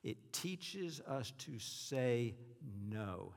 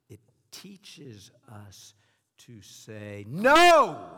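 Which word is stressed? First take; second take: none; no. First: The sentence is read plainly without special emphasis. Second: The word "no" is strongly emphasized.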